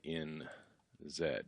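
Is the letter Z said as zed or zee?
zed. The letter Z is said the British way, zed.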